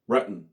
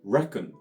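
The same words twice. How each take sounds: First: The k sound is cut off in the throat. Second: The k sound in the middle is fully pronounced. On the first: "みたいに発音します" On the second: "reckon ではなく"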